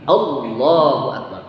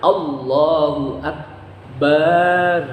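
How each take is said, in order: First: All vowels keep their normal short length. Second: The final 'bar' vowel is drawn out long. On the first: It declares that God is the greatest. The speaker calls it right. "Jadi Allahu akbar" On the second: It calls God a drum. The speaker calls it wrong. "Berarti panjang. Enggak boleh juga"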